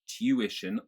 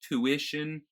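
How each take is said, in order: First: A y sound follows the t. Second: No y sound follows the t. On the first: "There's a y sound" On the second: "you would not have that y sound"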